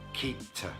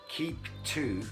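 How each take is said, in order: First: The word to is weakened and reduced. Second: The word to is said in full.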